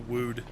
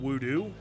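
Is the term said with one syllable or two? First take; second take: one; two. First: The term is said with one syllable. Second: The term is said with two syllables. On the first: This is how the player prefers to say it. The speaker calls it right. "I kind of just call it the Wood" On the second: This is how the English dub says it. The speaker calls it wrong. "I really, really hate the pronunciation voodoo"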